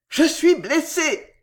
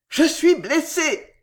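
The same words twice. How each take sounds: First: It is a joyful cry. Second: It is a joyful cry.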